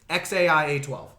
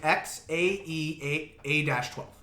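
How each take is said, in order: First: The second part is said as letters A I. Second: The second part is said as letters A E. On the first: This is the mother's version of the name. "You actually have to pronounce it X A I A twelve" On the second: This is how the name looks when written. "That's how it looks"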